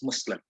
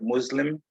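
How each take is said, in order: First: The middle consonant is a hissing S sound. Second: The middle consonant is a buzzing Z sound. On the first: This follows the word's original language. "it is should be pronounced as S" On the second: This is the usual English way. "we use ... the S as Z"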